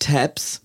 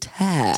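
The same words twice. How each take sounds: First: The word is said with a Germanized pronunciation. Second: The word is said with an American English pronunciation. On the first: The speaker calls it wrong. "Wie wir das hier eingedeutscht sagen" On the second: The speaker calls it right. "sondern tabs"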